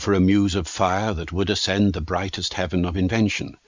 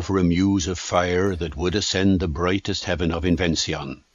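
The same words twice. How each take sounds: First: It is spoken in a present-day English accent. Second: It is spoken in a reconstructed Elizabethan accent. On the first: "spoken first of all in a modern accent" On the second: "in Shakespearean pronunciation, it would have been something more like this"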